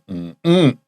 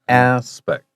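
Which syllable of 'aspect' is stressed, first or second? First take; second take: second; first. First: The stress is on the second syllable. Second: The stress is on the first syllable. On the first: The speaker calls it wrong. "Lots of my students will say, mm-mm, wrong" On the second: The speaker calls it right. "the accent is on the first syllable, not the second"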